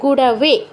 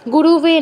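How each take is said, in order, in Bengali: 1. দ্বিতীয় অক্ষরে ছোট 'a' স্বরধ্বনি আছে। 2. দ্বিতীয় অক্ষরে যোগ করা 'u' স্বরধ্বনি আছে। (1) "গুরবে, ঠিক আছে" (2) "গুরুবে নয়"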